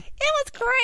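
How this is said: It is said in a funny voice.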